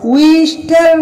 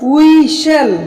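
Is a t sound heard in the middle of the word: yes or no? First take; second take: yes; no. First: A t sound is heard in the middle. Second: No t sound is heard in the middle. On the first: The speaker calls it wrong. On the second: The speaker calls it right.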